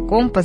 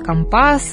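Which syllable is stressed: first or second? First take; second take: first; second. First: The stress falls on the first syllable. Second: The stress falls on the second syllable. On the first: This is how everyone else says it. "говорят все остальные" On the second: This is how sailors say it. "Моряки там, например, говорят"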